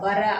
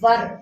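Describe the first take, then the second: First: The word ends with a vowel after r. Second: The word ends on a bare r consonant. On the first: The speaker calls it wrong. "வ ர வர அப்படின்னு படிக்க கூடாது" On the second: The speaker calls it right. "வர் அப்படின்னு படிக்கணும்"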